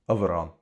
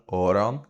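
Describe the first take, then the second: First: It is said in a traditional Cork form. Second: It is said with a long O sound. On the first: "except for Cork, which traditionally has" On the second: "In Ulster, you get the long O sound"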